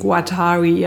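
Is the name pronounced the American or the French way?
American. The name is said with an American pronunciation. "Die Amerikaner sprechen ihn Guattari aus"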